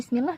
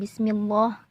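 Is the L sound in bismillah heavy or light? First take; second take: light; heavy. First: The L is pronounced light and thin. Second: The L is pronounced heavy and thick. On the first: The speaker calls it right. "cara bacanya bismillah kan" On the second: The speaker calls it wrong. "Bukan bismillah"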